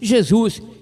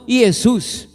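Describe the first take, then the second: First: The word starts with a 'zh' sound. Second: The word starts with a 'y' sound. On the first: This is the modern Portuguese form. "no português moderno, temos Jesus" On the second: This is the old Latin form without the letter J. "e não Jesus"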